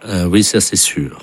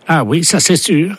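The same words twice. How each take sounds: First: Said in the usual way. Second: Much higher put-on voice; high deputy voice. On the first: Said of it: "same words then redone in another voice". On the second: Prankster's deputy echoing the interpreter, high put-on voice. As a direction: squeak it out like the fake deputy. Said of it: "same words in the deputy's high voice".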